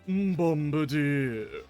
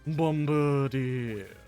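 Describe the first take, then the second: First: It is said in a grand, pompous put-on voice. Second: It is said in a plain, ordinary speaking voice. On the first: "or more specifically, using a more pompous, like, sounding voice" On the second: "instead of Bombardier. Just Bombardier"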